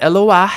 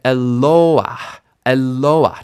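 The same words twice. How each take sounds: First: "Eloah" with the final AH punched high and loud; e-lo-AH, weight thrown on the last syllable; wrongly stressed ending. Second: "Eloah" with a long, strong LO; e-LOOO-ah, loud on LO, falling off after; stress before the end. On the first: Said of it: "not Eloah". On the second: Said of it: "the stress doesn't end up on that". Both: Shown as a demonstration.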